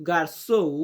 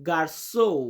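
The two takes are said the same way.

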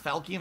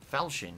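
First: The middle consonant is a hard k sound. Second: The middle consonant is a ch sound. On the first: The speaker calls it wrong. "It's not Falcon" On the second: The speaker calls it right. "that's how you say it"

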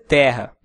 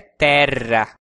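First: The word is pronounced the Portuguese way. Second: The word is pronounced the Latin way. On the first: "Em português pode até ser terra" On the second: "mas em latim é terra"

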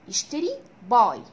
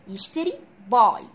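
No difference in how they are said.

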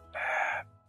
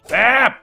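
First: It is said quietly. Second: It is yelled loudly.

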